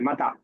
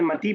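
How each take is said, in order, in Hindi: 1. शब्द एक खुले 'ah' स्वर पर खत्म होता है। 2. शब्द एक बंद 'ee' स्वर पर खत्म होता है। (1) "तो समझ लीजिए कि वो अलिफ ही है" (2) "जैसे आपने मती पढ़ा"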